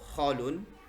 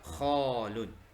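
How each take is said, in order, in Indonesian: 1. Vokal pertama pendek. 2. Vokal pertama panjang. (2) "yang benar khalun. Ya, ada panjang di sini"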